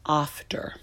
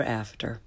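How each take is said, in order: First: "after" with a broad British ah; British accent. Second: "after" with American short a as in cat; American accent. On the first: Teacher giving a British example, British accent on "after". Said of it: "flavor of your English is British". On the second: Teacher contrasting the vowel, American accent on "after". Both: Shown as a demonstration.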